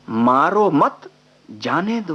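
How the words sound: There is a pause after 'mat'.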